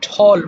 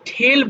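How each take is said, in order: First: The vowel sounds like 'aw'. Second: The vowel sounds like 'eh'. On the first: The speaker calls it right. "উচ্চারণটা হবে ঠল" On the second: The speaker calls it wrong. "অনেকে এটা ঠেল বলে ফেলতে পারো"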